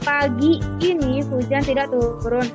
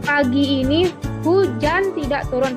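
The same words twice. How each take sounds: First: The stress falls on "pagi ini". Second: The stress falls on "hujan". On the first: "Penekanan pada kata pagi ini" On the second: "Penekanan pada kata hujan"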